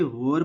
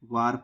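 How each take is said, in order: First: वॉर rhyming with "or"; वॉर, the A sounded as O; O-sound pronunciation. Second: वार rhyming with "car"; वार, the A sounded as long AA; AA-sound pronunciation. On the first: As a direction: say वॉर with a rounded "aw" vowel. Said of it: "या हम इसे वॉर पढ़ेंगे". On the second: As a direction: say वार with an open "aa" vowel. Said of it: "या तो हम इसे वार". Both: Shown as a demonstration.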